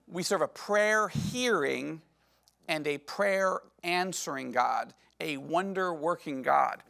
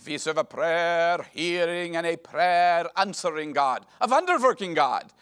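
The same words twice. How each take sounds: First: It is said in a plain American accent. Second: It is said in a thick Indian accent.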